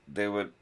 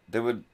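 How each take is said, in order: Both takes have the same delivery.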